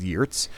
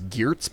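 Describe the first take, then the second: First: The name is said with a Dutch pronunciation. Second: The name is said with an English pronunciation. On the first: This is the form used in the original language. "I'm told the Dutch pronunciation is Geertz" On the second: This is the form most people know. "which I think people might know as Geertz"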